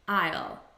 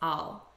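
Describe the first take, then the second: First: The word is pronounced fully and clearly. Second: The word is pronounced quickly and reduced.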